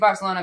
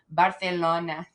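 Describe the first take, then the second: First: It is said with a plain English s sound. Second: It is said with a Spanish lisped th sound.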